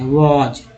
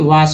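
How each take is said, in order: First: The word ends with a z sound. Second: The word ends with an s sound. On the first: The speaker calls it right. "W A S को क्या बोलते हैं? वॉज" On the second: The speaker calls it wrong. "न कि वास बोलते हैं"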